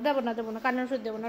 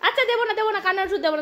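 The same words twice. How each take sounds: First: Lower, softer coaxing repeat; quiet coaxing version; softly coaxing no medicine. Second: Playful mock concession; high playful fine, no medicine; teasing bargain. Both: Real, not acted. Bargaining with the dog.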